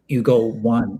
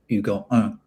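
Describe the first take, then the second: First: The last word is said like English "one". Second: The last word is said like French "un". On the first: "tries to go you go one" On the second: "you could have just went fully on the French vibes there"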